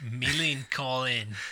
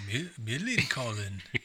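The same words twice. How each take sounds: First: It is said in an attempted Australian accent. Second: It is said in an imitated Swedish accent. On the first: "it was supposed to be Australian" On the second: "This is just sort of my impression of my Swedish teacher"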